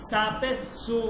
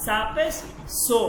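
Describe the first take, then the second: First: "সু" with an oo vowel; "সা পেশ সু" spelt out, ending in oo; Arabic-style pesh. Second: "সো" with an o vowel; "সা পেশ সো" spelt out, ending in o; Persian-style pesh. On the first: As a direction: say "সু" as soo, the Arabic way. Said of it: "আরবিতে যদি কোনো বর্ণের উপর". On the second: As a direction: say "সো" as so, not soo. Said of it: "বলতে হবে". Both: Shown as a demonstration.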